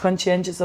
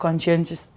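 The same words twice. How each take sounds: The two takes are said the same way.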